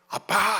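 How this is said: The middle consonant is a tense pp sound. "히브리인들은 아빠 발음이 돼요"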